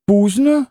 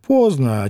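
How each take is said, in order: First: "Пуздно" with an u for the Russian o; "Пуздно" echoed as a puzzled foreign word; Polish-style pronunciation. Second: Said in the usual way. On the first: A narrator's reading. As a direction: say "Пуздно" high, with a closed u vowel. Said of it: "Это что такое пуздно?". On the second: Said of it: "То значит поздно".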